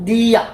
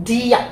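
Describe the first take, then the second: Both takes have the same delivery.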